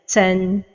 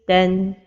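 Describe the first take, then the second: First: The t is released with heavy breathy air. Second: The t is released with only light breath. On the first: The speaker calls it wrong. "give hams when pronouncing this letter with a double vowel" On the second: The speaker calls it right. "the right pronunciation is ten"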